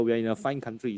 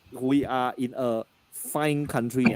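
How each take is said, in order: First: Said in the usual way. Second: "we are in a fine country" said slowly, leaning on "fine"; slow emphatic pun. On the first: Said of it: "please remember". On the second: Shown as a demonstration. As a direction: drag out "fine country" to land the joke. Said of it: "please remember, we are in a fine country".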